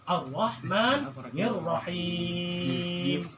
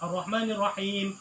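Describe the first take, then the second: First: The last vowel is held noticeably longer. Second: The last vowel is held only briefly. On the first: "Kalau yang biasa-biasa tartil ini murattal" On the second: "Yang baca yang dua harokat"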